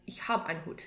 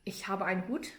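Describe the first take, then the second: First: "Ich hab einen Hut" with the E clipped off "habe"; dropped final E. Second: Said in the usual way. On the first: Shown as a demonstration. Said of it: "you would say". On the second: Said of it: "Instead of".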